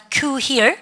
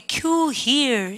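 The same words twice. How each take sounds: First: "queue here" with the end of HERE rising; pronunciation model. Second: Said in the usual way. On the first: Shown as a demonstration. Teacher prompts class to pronounce "queue here", rising drill delivery. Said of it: "발음을 갖다 합시다". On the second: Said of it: "여기 줄 서세요 갈 때".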